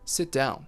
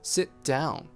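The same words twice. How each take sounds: First: The T is dropped completely with no hold. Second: The T is held briefly but not released. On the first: "that T is completely gone" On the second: "we make that preparation"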